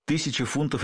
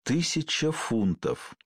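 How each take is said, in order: First: Said in the usual way. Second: Very slow, drawn-out musing; slow, wistful weighing of an offer. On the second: A narrator's reading. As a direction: savour the sum, stretching each word. Tempted man mulls over the sum.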